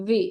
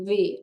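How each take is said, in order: First: The letter starts with a sound between v and b. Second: The letter starts with a sound between v and b.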